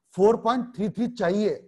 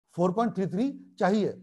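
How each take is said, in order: First: Four point three three चाहिए with four hit hard and louder; firm insistence. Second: Said in the usual way. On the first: Shown as a demonstration. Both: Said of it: "Minimum they want four point three three".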